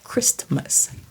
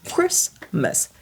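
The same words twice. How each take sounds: First: The t in the middle is pronounced. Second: The t in the middle is silent. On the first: The speaker calls it wrong. "C'est pas Christmas" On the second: The speaker calls it right. "c'est le T muet"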